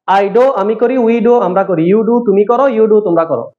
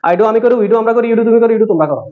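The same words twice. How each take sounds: First: It is said slowly. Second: It is said a bit faster.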